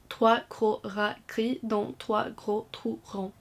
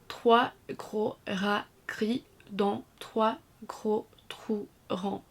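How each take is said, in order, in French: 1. Elle est dite rapidement, de façon détendue. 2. Elle est dite lentement, avec chaque voyelle bien articulée. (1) "Accélérez le rythme tout en restant détendu" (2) "lire la phrase très lentement en articulant instinctivement chaque voyelle"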